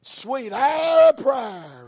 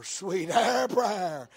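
First: Sung, loud, drawn-out hymn line; sung, belt out the hymn slowly; hymn singing. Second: Sung, slow, drawn-out hymn line at ordinary volume; hymn singing. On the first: Hymn line sung within sermon. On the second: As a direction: sing it back more gently, stretching it. Hymn line sung again, less loud. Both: Retold or imitated.

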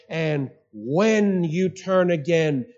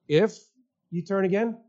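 First: WHEN drawn out slowly, with a falling, certain finish; stress on WHEN. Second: IF set apart by pauses, then a rising question; doubtful IF, then "you turn again?" rising as a question. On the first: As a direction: lean long on "when", slow and sure. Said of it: "He says". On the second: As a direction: pause after IF and end on a questioning lift. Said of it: "No. He says". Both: Shown as a demonstration.

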